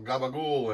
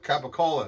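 First: It is said with a clipped American pronunciation. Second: It is said with a standard, full pronunciation.

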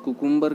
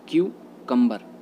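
First: The word begins with a plain 'koo' sound. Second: The word begins with a 'kyoo' sound. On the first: The speaker calls it wrong. "कुकुम्बर गलत होता है" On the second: The speaker calls it right. "इसका right pronunciation होता है क्यूकम्बर"

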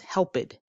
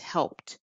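First: The ending is an extra id syllable. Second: The ending is a plain t sound. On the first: The speaker calls it wrong. "helped becomes helped, helped. That's not correct" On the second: The speaker calls it right. "it's helped, T sound"

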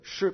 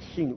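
First: The air escapes through the centre of the tongue. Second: The air escapes over the sides of the tongue. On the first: The speaker calls it right. "il faut dire che, comme ça" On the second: The speaker calls it wrong. "où je fais passer le son sur les côtés"

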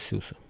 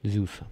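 First: The name begins with an S sound. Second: The name begins with a Z sound. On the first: The speaker calls it wrong. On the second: The speaker calls it right.

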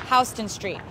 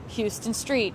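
First: Houston sounds unlike the city in Texas. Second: Houston sounds like the city in Texas. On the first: The speaker calls it right. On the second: The speaker calls it wrong.

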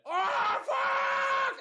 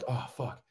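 First: It is screamed at full volume. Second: It is said at a normal, quiet level.

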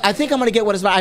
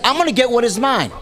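First: It is said hesitantly, without conviction. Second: It is said firmly, with conviction.

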